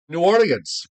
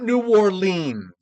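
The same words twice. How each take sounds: First: The name is run together like one word. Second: The name is said as separate words. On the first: The speaker calls it right. "You have to say it like it's one word" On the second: The speaker calls it wrong.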